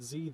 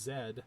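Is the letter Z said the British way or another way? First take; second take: other; British. First: The letter is said a non-British way. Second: The letter is said the British way. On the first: "Z is not Z there" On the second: "it's Z"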